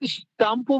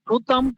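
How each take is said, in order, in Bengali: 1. প্রথম s-এর পরের স্বরটি বাদ যায়। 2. প্রথম s-এর পরের স্বরটি পুরোপুরি উচ্চারিত হয়। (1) "এক্সাক্ট উচ্চারণ হচ্ছে স্টাম্পু" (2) "সুতাম্পু বললেও হবে"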